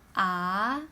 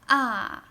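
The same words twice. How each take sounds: First: The pitch rises like a question. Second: The pitch falls sharply from high. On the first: "Second tone is a question rising tone" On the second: "Fourth tone is a little bit aggressive"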